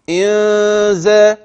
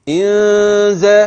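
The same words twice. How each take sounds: No difference in how they are said.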